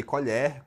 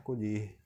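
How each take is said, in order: First: "colher" as the spoon, open final e. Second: "colher" as the verb to pick, closed final e. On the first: Teacher contrasting spoon and picking, open E in "colher". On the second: Teacher contrasting spoon and picking, closed E in "colher". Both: Shown as a demonstration. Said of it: "Perceba a diferença".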